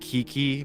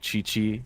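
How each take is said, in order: First: The name begins with a k sound. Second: The name begins with a ch sound. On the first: The speaker calls it wrong. "what some people will call it" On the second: The speaker calls it right. "it's actually pronounced like Chi Chi"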